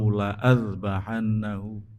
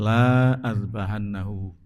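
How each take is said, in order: First: The vowel of the first word is short. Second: The vowel of the first word is long. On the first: It means: I will surely slaughter him. The speaker calls it right. "Jadi lamnya dibaca pendek" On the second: It means the opposite: I will not slaughter him. The speaker calls it wrong. "jangan sampai dibaca panjang"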